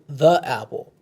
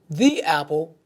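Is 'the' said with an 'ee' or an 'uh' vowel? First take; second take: uh; ee. First: The word 'the' ends with an 'uh' vowel. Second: The word 'the' ends with an 'ee' vowel.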